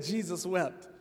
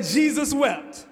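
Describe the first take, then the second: First: Soft, lower, throwaway "Jesus wept."; quiet mock recital. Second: Loud, slow, drawn out "Jesus wept."; mock proud recital. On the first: Preacher replaying the lazy verse as the punchline, soft and deadpan. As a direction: drop it quietly, the flat punchline. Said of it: "so they said". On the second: Preacher retelling the one person with the shortest verse, loud slow mock pride. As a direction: plant it slowly like a big achievement. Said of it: "They say".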